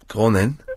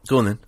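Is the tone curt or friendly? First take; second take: friendly; curt. First: It is said in a nicer, friendly tone. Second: It is said in a curt, unfriendly tone. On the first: The speaker calls it right. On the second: The speaker calls it wrong.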